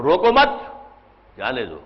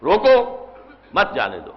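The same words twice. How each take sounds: First: Attach مت to روکو, stop, then drop to جانے دو; pause after مت. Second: روکو raised alone, then drop down for مت جانے دو; pause after روکو. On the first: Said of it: "اس کا بالکل برعکس ہو گیا". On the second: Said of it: "کے بعد رکے". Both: Shown as a demonstration.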